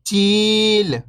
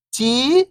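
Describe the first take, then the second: First: Whole word, level then falling at the end; syllables blended. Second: First syllable lifting, pause, second falling. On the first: Teacher showing beginners the joined word, syllables blended. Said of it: "तो मिलके बन जाएगा". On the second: Teacher breaking a word down for beginning readers, syllable by syllable. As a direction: sound out each syllable alone, long and separated. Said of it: "एक अक्षर का उच्चारण करके". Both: Shown as a demonstration.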